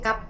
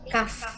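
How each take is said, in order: First: The word ends with a p sound. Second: The word ends with an f sound. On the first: The speaker calls it wrong. "Pakai F juga ya ujungnya, jadi bukan kap" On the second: The speaker calls it right. "tapi kaf"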